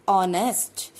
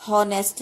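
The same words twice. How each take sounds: First: ऑनेस्ट said with no H, starting straight on the O vowel; silent H. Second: हॉनेस्ट said with a clear H sound, as it is written; spelled-out honest. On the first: Teacher showing students how it is read, silent H in ऑनेस्ट. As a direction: drop the H and open ऑनेस्ट on O. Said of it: "लेकिन read हम क्या करते हैं?". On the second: Teacher showing students the written form, H sounded in हॉनेस्ट. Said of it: "क्या लिखते हैं हम?". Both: Shown as a demonstration.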